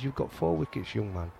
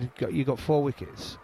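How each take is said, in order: First: Put-on a light Yorkshire accent, trailing softer; lightly put-on Yorkshire voice, dropping away at young man. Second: Said in the usual way. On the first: Captain praising a young bowler after a wicket, in a light Yorkshire accent. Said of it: "I'm saying it in a Yorkshire accent". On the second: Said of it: "Not in them words".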